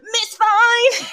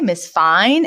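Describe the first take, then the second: First: It is said as a Mister Sheffield impression. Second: It is said in a plain, normal voice.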